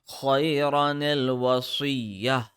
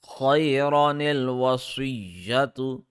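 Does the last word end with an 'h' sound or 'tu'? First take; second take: h sound; tu sound. First: The last word ends in a soft 'h' sound. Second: The last word ends with a 'tu' sound. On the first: The reader stops at this word. "Since we are stopping here, the round ta will turn into ha and the dhamma will turn into sukoon" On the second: The reader continues without stopping. "if we want to continue reading, then it will be like this"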